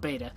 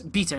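First: Beta is said with a non-British pronunciation. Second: Beta is said with a British pronunciation. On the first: "not beta" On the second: "that's how you pronounce beta in the UK"

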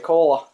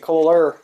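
First: It is said in a Boston accent. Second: It is said in a Southern US accent. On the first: "we say cola" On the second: "You guys say cooler"

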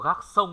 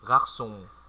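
First: The final vowel is short and not nasal. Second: The final vowel is long and pushed through the nose. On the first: The speaker calls it wrong. "không phải không có gác sông đâu nhá. Đừng đọc như vậy" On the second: The speaker calls it right. "nó dài ra"

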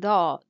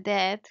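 First: It is said with the Arabic emphatic sound. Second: It is said like the English word dad. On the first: The speaker calls it right. "c'est dot" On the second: The speaker calls it wrong. "c'est pas dad comme en anglais qui signifie papa"

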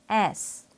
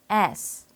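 First: The mouth opens then closes, English-style. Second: The same.

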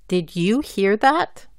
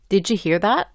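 First: Each word is said clearly and separately. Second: The words run together and link. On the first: "la pronuncio bien y claramente" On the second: "juntando o enlazando las letras"

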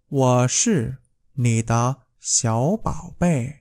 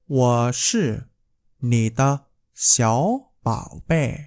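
Both takes have the same delivery.

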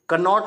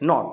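First: The word begins with an audible k sound. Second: The word begins with an n sound, no k. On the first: The speaker calls it wrong. "कनॉट नहीं पढ़ते" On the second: The speaker calls it right. "क्या पढ़ते"

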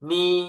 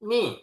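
First: The pitch stays high and level. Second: The pitch falls sharply from high to low. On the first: "เสียงที่หนึ่ง" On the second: "เสียงที่สี่"

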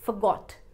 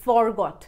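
First: The first syllable is a reduced 'fuh'. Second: The first syllable is a full 'for'. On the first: The speaker calls it right. "फ" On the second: The speaker calls it wrong. "ना कि forgot"

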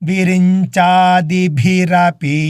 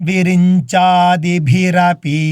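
Both takes have the same delivery.

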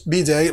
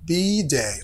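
First: The stress is not on the first letter. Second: The stress is on the first letter. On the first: The speaker calls it wrong. "ما أقولش be day like that" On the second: The speaker calls it right. "في تشديد على the first letter الحرف الأول, بقول be day like that"

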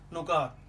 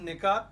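First: The first vowel is 'u'. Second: The first vowel is 'i'. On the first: The speaker calls it wrong. "कुछ लोग पढ़ देते हैं, कह देते हैं नुकात" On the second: The speaker calls it right. "नून के नीचे ज़ेर है"

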